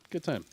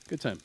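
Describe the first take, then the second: No difference in how they are said.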